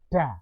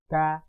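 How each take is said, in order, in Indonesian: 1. Bunyi d dibuat dengan lidah di langit-langit. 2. Bunyi d dibuat dengan lidah di gigi. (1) "ujung lidah kita menyentuh pada langit-langit" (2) "ujung lidah kita menyentuh pada gigi depan"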